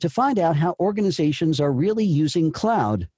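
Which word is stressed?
cloud. The stress falls on cloud.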